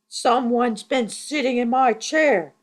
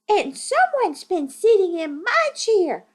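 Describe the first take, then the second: First: It is said in a big, deep voice. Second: It is said in a tiny, high voice.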